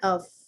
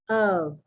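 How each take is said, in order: First: The word ends with an F sound. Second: The word ends with a V sound. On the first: The speaker calls it wrong. "not of" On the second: The speaker calls it right. "It's O V"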